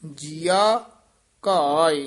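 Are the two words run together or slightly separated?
separated. The two words are slightly separated. The speaker calls it right. "ਥੋੜਾ ਜਿਹਾ ਨਖੇਰ ਕੇ ਪਾਠ ਕਰਨਾ"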